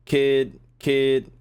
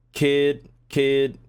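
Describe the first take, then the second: No difference in how they are said.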